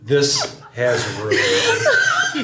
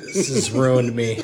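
First: Very slow, drawn out through helpless laughter; collapsing into laughter; laughing harder. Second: Slow words squeezed out through laughter; can barely get it out for laughing; helpless laughter. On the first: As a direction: dissolve into it. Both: Real, not acted. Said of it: "my face hurts from laughing".

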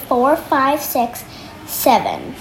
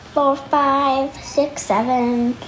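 No difference in how they are said.

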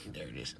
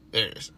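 First: Hushed, low whisper; trying to be quiet. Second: Said in the usual way. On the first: Real, not acted. Keeping quiet so the dog is heard, whispered. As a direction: whisper it under your breath. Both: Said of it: "I was just trying to be quiet".

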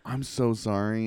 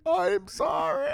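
First: Said in the usual way. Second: High, slow, shouted sorry; shouted apology. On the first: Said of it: "I'm like". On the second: Retold or imitated. Apologizing to the girl from afar, high slow shout. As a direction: call out an apology across the camp. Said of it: "And I'm like".

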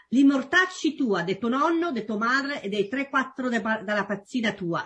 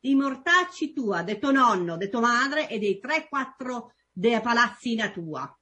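First: Roman dialect insult, stumbling; Roman accent. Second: Roman dialect insult said smoothly; Roman accent. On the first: Guest tries a Roman insult for the host in Roman accent. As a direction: spit out a Roman curse. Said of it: "I try to do your, uh, accent". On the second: Guest redoes the Roman insult cleanly in Roman accent. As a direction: rattle off the Roman curse. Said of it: "Let me do it again". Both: Shown as a demonstration.

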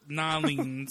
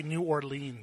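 First: New Orleans run into Nolines. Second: New Orleans with every sound said. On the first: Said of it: "I thought it was". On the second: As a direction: say New Orleans carefully, full syllables. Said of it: "That's how they say it". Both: Shown as a demonstration.

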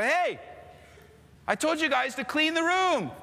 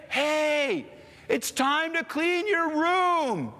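First: Mock stern dad. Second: Slow, drawn-out, higher fed-up dad; weary dad. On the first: Dad scolding kids again. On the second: Retold or imitated. Dad telling the kids yet again to clean, slow and weary. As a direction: drag every word like the umpteenth time. Dad's final room demand.

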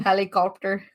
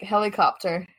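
First: Aussie "Helicopter" with an R put before the P; attempted Aussie accent. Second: Said in the usual way. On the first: Shown as a demonstration. Showing that Aussies put R's on everything, attempted Aussie accent. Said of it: "It's like a R". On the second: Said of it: "Say, like, helicopter".

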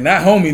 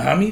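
First: Said in the usual way. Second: "homie" with an open "ah" in the first syllable; Cali "homie". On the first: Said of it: "Like, not homie". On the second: Shown as a demonstration. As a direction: say "homie" as HAH-mee.

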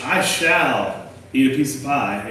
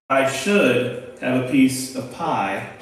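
First: I shall said slowly and firmly; stress on shall. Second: Should drawn out slowly with a rising tune; stress on should. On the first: A pastor teaching his class, slowly stressing shall. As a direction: lean on shall as a firm intent. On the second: A pastor teaching his class, slowly stressing should. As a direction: lean on should as a mere wish. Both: Shown as a demonstration. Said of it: "there's a difference between should and shall".

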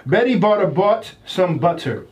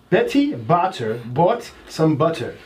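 First: Careful demo of the tongue twister; slow reading. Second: Slow, careful second reading; slow repeat. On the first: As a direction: read it out slowly and clearly. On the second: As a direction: read it again, word by word. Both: Shown as a demonstration. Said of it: "this one says".

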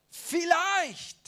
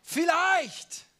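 No difference in how they are said.

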